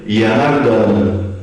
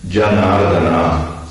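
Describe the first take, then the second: First: It begins with a y sound. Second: It begins with a j sound. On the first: This is how Brazilian readers read the Spanish spelling. The speaker calls it wrong. "leram Yanardana" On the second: This is the original Sanskrit pronunciation. The speaker calls it right. "transliterando do sânscrito"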